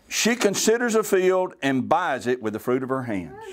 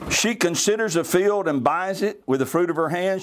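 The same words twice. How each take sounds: First: There is a pause after "hands". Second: There is a pause after "buys it". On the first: She buys the field with what her hands earned. The speaker calls it right. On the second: She plants the vineyard with what her hands earned. The speaker calls it wrong.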